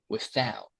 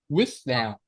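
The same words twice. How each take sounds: First: The stress is on the second syllable. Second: The stress is on the first syllable. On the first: The speaker calls it right. "But it should be the se the second" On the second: The speaker calls it wrong. "if we pronounce like that, we stress on the first sy- syllable"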